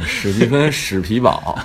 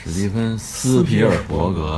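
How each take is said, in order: First: 史皮堡 said as the short three-syllable form, shǐ pí bǎo; 史皮堡 replaces 斯皮尔伯格, shǐ pí bǎo; short name Spielberg. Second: 史蒂芬·斯皮尔伯格 said as the full mainland name, 斯皮尔伯格 in four syllables; 斯皮尔伯格 given all four syllables, sí pí ěr bó gé; full name Spielberg. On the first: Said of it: "不是". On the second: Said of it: "不是，史蒂芬·史皮堡". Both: Shown as a demonstration.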